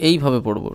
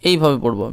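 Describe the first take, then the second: Both takes have the same delivery.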